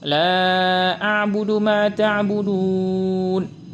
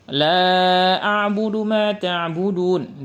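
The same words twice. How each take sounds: First: The last long vowel is held very long. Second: The last long vowel is held briefly. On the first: "enam harokah" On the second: "dua harokah"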